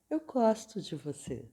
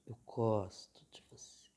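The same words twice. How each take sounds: First: The tone sounds warm and sincere. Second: The tone sounds hesitant and unconvinced. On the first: The words are meant and leave no doubt. "o que eu estou dizendo nas minhas palavras e no meu olhar e no meu tom de voz, tá tudo bem" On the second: The words are not really meant, causing doubt. "o tom da minha voz não está dizendo que eu gosto de você"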